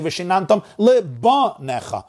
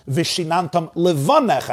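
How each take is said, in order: First: Lebanecha with a punched B replacing V; hard B in lebanecha. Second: Levanecha with a soft V in the middle. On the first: Teacher showing an inappropriate reading, hard B in lebanecha. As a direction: harden the V of levanecha into B: lebanecha. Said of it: "turning it into a bays". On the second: Teacher reading the verse correctly, soft V in levanecha. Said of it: "I'm taking the vase". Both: Shown as a demonstration.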